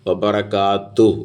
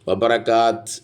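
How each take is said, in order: First: The word ends with a final 'u' vowel. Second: The word ends on the 't' consonant. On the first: The speaker calls it right. "വബറകാത്തു എന്ന നിർത്തുക" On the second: The speaker calls it wrong. "വബറകാത്ത് എന്ന് നിർത്തൂല"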